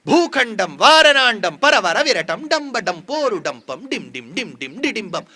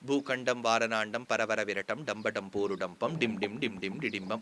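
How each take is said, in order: First: It is recited vividly, with dramatic force. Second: It is recited flatly, without dramatic force. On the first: The speaker calls it right. "அது சொல்லும் போது நம்ம கண் எதிர்க்க அந்த தூண் நிக்கணும்" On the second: The speaker calls it wrong. "அப்படி சொல்லாம"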